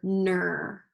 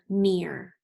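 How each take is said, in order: First: The vowel sounds like er in her. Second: The vowel sounds like ear in hear. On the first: The speaker calls it wrong. "let's do this one with E R" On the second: The speaker calls it right. "We have one more with ear"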